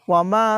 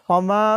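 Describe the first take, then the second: Both takes have the same delivery.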